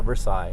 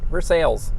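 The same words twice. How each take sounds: First: It is said the way most people say it. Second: It is said the local Missouri way. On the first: This is how people elsewhere name it. "they all call it Versailles" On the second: This is how locals in Missouri name it. "Here in Missouri, we call it Versailles"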